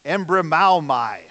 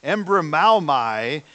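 First: Embrimaomai said slowly, syllable by syllable, with a falling end; careful slow Greek pronunciation of Embrimaomai; Greek word carefully pronounced. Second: Embrimaomai repeated slowly, with the stress unsure; second slow try at the Greek word Embrimaomai. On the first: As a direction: sound out Embrimaomai slowly and firmly like a Greek scholar. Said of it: "I'm gonna try to pronounce it". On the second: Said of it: "I'm probably putting the emphasis in the wrong place". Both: Shown as a demonstration.

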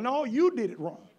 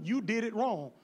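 First: You leaned on hard, then falling; correcting a congregant, stress on you. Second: Said in the usual way. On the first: Shown as a demonstration. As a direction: lean on "you" to pin the blame.

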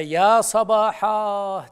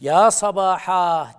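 First: Long, slow ringing shout of alarm; alarm cry. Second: Drawn-out, loud warning shout; alarm cry. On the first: Prophet calls people from Safa hill, loud and slow alarm cry. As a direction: call it out like a warning from a hilltop. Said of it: "diye bağırdı". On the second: Teacher repeats the alarm call on Safa, loud and drawn out. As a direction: sound the alarm slowly. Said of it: "diyorsa birisi". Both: Retold or imitated.

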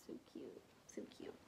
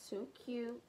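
First: Soft unvoiced whisper, trailing off; whispered repeat. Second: Said in the usual way. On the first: Real, not acted. Unboxing a gift, repeating the praise in a whisper. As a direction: breathe it out as a private aside.

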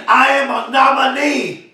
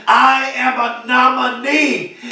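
First: Excited. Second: Slower, settled announcement; deliberately calmed-down restatement; calmer. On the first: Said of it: "I'm excited, y'all". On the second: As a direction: rein the excitement in and say it slowly. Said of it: "so let me calm down". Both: Real, not acted.

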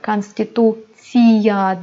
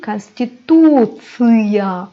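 First: Konstitusiya with a soft ee in -tsiya; wrong soft i. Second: Konstitusiya slowly, ending in tsı-ya; slow teacher's konstitusiya with hard -tsıya; hard ı after ts. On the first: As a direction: show the mistaken Konstitusiya, ending tsee-ya. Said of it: "Konstitusiya değil". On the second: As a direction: stretch the tu, then a hard back ı in konstitusiya. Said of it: "ıya okuyoruz". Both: Shown as a demonstration.

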